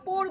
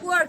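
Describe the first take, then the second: First: The vowel is an 'o' sound as in 'or'. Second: The vowel glides from 'oo' into 'uh'. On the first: The speaker calls it wrong. "পোর বলবে না" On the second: The speaker calls it right. "কি বলবে? পুয়ার"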